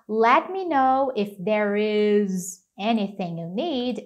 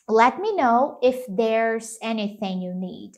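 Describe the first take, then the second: First: 'There is' is said as two full words. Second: 'There is' is contracted into one syllable. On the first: "ao invés de falar" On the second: "ele pode contrair"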